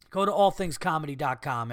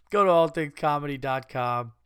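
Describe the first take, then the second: First: Said in the usual way. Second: Laughing through it. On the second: Real, not acted.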